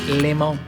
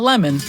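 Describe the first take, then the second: First: It is said with a Spanish-style pronunciation. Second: It is said like the English word lemon. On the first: The speaker calls it right. "Gotta be culturally appropriate" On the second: The speaker calls it wrong. "Not lemon"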